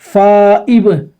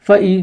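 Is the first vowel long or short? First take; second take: long; short. First: The first vowel is drawn out long. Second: The first vowel is kept short. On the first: The speaker calls it wrong. "फा को खींच देते हैं" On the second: The speaker calls it right. "ऐसे नहीं, इसको अच्छी तरह समझना है"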